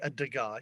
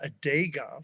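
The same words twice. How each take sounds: First: Degas is pronounced the common, usual way. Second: Degas is pronounced an odd, unusual way. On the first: "he doesn't say a Degas" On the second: "that's a weird way to pronounce it"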